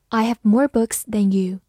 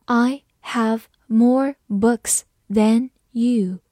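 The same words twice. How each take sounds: First: Said in the usual way. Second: Slow model sentence, pausing after each word; slow reading. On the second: Shown as a demonstration. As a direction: read slowly, one word at a time. (慢速逐词朗读) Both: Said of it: "慢慢来读".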